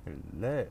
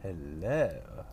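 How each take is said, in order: First: Hello. with a rising questioning lift at the end; Hello. rising, the take he rejects; wrong hello. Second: Hello. with a falling, settled end; Hello. falling, the take he settles on; corrected hello. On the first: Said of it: "you wouldn't say it like that". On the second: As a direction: let Hello. drop down at the end. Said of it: "You'd say". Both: Shown as a demonstration.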